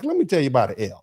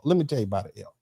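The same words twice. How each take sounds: First: Said in the usual way. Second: "Let me tell you about an L" said lower and softer; softer repeat. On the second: Shown as a demonstration. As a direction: drop the voice for the repeat.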